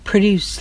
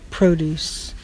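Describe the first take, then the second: First: The stress is on the second syllable. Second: The stress is on the first syllable. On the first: To make or create something. "like you want to produce something. Make something, accomplish something" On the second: Fruit and vegetables sold in a store. "That's like lettuce, tomatoes, when you buy things at the grocery store"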